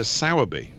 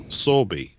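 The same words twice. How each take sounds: First: Sowerby said with an open OW in the first syllable; first pronunciation. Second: Sorby said with a long AW, like "saw"; alternative pronunciation. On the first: Offering a narrator's surname, Sowerby pronounced with an OW sound. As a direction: say Sowerby with SOW as in cow. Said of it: "I'd pronounce it S-, Sowerby, I guess". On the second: Offering another way to say the surname, Sorby with an AW sound. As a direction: say Sorby with an OR vowel, not OW. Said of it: "I'd pronounce it S-, Sowerby". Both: Shown as a demonstration.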